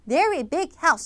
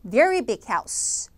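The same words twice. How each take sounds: First: The word very is not given the main stress. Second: The word very carries the main stress. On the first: The speaker calls it wrong. "이렇게 읽을 리는 없잖아요" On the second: The speaker calls it right. "very라는 최종적인 수식어인 부사에다가만 강세를 주면 좋겠죠"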